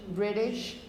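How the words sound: The middle t is a quick flap. "If you were American... with this sort of flap R"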